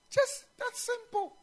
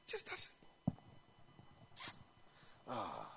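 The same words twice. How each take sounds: First: The phrase said high and very slow; slow it right down on "Just that simple"; preacher marvelling at the simplicity; stressed simplicity. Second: "Just that simple" whispered, much softer; quiet awed echo; breathy hush. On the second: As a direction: breathe the words out, almost silent. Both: Real, not acted.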